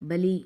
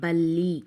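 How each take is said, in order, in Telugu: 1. 'l' శబ్దం చిన్నదిగా, ఒకటిగా ఉంటుంది. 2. 'l' శబ్దం పొడవుగా, వత్తుగా ఉంటుంది. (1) "ఒత్తి పట్టి చదవకపోతే ఎలా ఉంటుందో చూడండి" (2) "వత్తి పట్టి పలికి చదివితేనే దానికి ఒక మీనింగ్ అనేది వస్తుంది"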